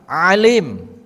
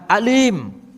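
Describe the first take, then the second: First: It begins with a throaty ain sound. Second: It begins with a plain glottal stop. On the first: Someone who is very knowing. "alim pakai ain" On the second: Someone who is in great pain. "alim pakai hamzah"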